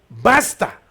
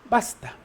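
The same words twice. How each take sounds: First: It is shouted loudly and forcefully. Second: It is said calmly and quietly.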